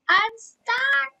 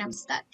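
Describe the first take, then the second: First: Very high, loud cry of dismay; real high-pitched yelp; loud wail. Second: Said in the usual way. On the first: Real, not acted. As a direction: yell it out high and helpless. Yells it again, then apologises for neighbors.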